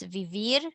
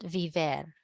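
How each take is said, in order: First: Vivir ending in an "eer" sound; correct ending -ir. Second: Viver ending in an "air" sound; mistaken ending -er. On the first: Teacher correcting herself for the class, vivir stressed on a final "veer". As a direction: say vivir with an i in the last syllable. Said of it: "not viver". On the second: Teacher showing the class her earlier slip, viver ending in "vair". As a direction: say viver with an e in the last syllable. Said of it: "it's vivir". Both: Shown as a demonstration.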